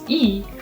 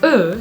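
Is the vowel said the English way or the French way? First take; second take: English; French. First: The vowel is said the English way. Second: The vowel is said the French way. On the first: "in English, the pronunciation is" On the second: "but in French it's"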